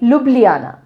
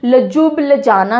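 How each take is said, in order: First: The j sounds are left silent in the name. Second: The j sounds are pronounced in the name. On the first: The speaker calls it right. "जे silent" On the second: The speaker calls it wrong. "नहीं बोलते हैं"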